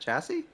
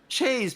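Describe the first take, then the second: First: The word is said with two syllables. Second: The word is said with one syllable. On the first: "Is that chassis?" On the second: "is that really how you say it? Okay"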